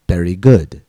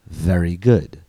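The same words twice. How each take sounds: First: The word very begins with a b sound. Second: The word very begins with a v sound. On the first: The speaker calls it wrong. "a student might be saying something like berry" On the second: The speaker calls it right. "instead of very good"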